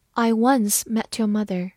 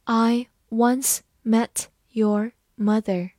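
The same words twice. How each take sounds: First: Said in the usual way. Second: Each word separated by a pause; deliberate slow teaching demo; slow reading. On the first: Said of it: "慢慢来读". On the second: Shown as a demonstration. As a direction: read it slowly, word by word. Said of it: "好，慢慢来读".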